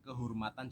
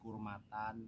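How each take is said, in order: First: Every syllable is clearly articulated. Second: Syllables are slurred and dropped. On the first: The speaker calls it right. "Artikulasi jangan sampai" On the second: The speaker calls it wrong. "jadi kurmatan"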